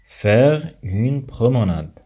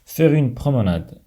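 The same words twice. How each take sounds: First: Slow, careful teacher delivery. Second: Said in the usual way. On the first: Shown as a demonstration. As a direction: pronounce every syllable slowly. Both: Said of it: "repeated slowly as a teaching demo".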